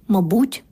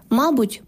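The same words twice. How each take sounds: First: МАБУТЬ stressed on БУТЬ, мабУть; end-stressed мабУть; second-syllable stress. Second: МАБУТЬ stressed on МА, мАбуть; front-stressed мАбуть; first-syllable stress. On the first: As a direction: hit the У in МАБУТЬ, rising. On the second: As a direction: hit the А in МАБУТЬ, falling after it. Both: Shown as a demonstration. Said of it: "існування подвійних наголосів".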